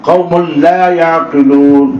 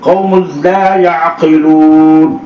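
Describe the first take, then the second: The two takes are said the same way.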